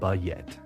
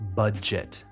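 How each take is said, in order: First: The J is softened like a Y. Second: The J is a full J sound. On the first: The speaker calls it wrong. "soften that sound and it becomes like a Y" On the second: The speaker calls it right. "Budget and not"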